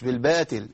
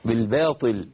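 First: Faulty بالباطل with ط turned to light ت; weakened ta. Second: Firm emphatic ط in بالباطل, never a light t; clear emphatic ta. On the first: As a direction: say بالباطل as bil-batil, thin t. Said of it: "مش بالباطل". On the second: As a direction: say بالباطل with a heavy, distinct ط. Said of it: "لابد من بيان الطاء". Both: Shown as a demonstration.

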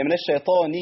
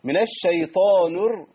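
First: "الشيطان" ending in a clear "ni"; nun with kasra. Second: Slow "الشيطان" with its final nun rounded towards u; "الشيطان" drawn out, ending on a u-coloured nun; tinged with damma. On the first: Shown as a demonstration. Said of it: "النون مكسورة". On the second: Retold or imitated. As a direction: imitate the slip, shading the nun of "الشيطان" into "nu". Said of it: "كده عملنا ريحة ضم".

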